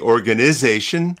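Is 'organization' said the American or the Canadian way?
American. It is said in an American accent. "we used to say"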